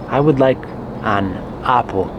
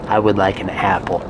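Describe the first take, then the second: First: The first vowel of apple sounds Spanish. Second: The first vowel of apple sounds English. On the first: The speaker calls it wrong. "So this is incorrect" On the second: The speaker calls it right. "In English, ah, apple. ... doesn't that sound so much better?"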